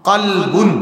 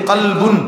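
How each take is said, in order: No difference in how they are said.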